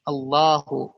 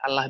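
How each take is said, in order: First: The L is said heavy and thick. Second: The L is said light and thin. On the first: It shows glorification. "kalau kita ditebalkan itu sebagai bentuk pengagungan" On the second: It is the ordinary way non-Muslims say it. "Allah biasa"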